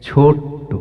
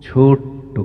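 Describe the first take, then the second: The two takes are said the same way.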